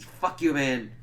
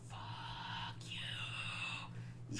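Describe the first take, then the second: First: Said in the usual way. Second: Long, drawn-out, very soft whisper; whispered curse. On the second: Real, not acted. Fan reacting to "agree to disagree", drawn-out whispered curse.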